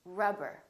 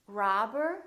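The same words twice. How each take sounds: First: "rubber" with a short uh; brief first vowel in "rubber"; neutral uh vowel. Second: "Robber" as "rahber", rising; long open "ah" in "Robber"; tense ah vowel. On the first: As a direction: model "rubber", relaxed and lax. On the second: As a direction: stretch the start of "Robber". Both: Shown as a demonstration. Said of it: "with ah and uh".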